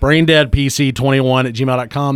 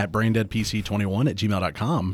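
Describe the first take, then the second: First: It is yelled very loudly. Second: It is said at a normal volume.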